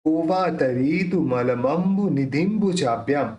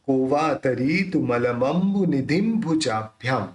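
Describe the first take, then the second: First: Said in the usual way. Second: निधिम भुजाभ्याम with the dot sounded as a closed-lip m before भ; anusvara as m. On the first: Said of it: "अब देखिए, यहाँ पे जो बिंदी है". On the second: Shown as a demonstration. Teacher correcting the anusvara for students, slow and precise. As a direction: slowly join निधिम into भुजाभ्याम with a clear m. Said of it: "ऐसे निकलेगा".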